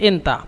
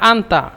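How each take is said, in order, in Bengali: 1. শব্দটি 'i' স্বরধ্বনি দিয়ে শুরু হয়। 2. শব্দটি 'a' স্বরধ্বনি দিয়ে শুরু হয়।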